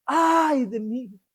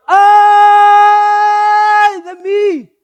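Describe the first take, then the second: First: Quiet, slow sigh of woe; a hushed, drawn-out lament; slow muted lament. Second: Loud, very slow anguished wail, pitched higher; a prophet's howl of despair, held long and loud; drawn-out wailing cry. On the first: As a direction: let it fall softly like a resigned sigh. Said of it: "No sé si así". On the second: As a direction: stretch out a desperate cry of woe. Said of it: "¿Cómo creen que lo diría?". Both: Shown as a demonstration.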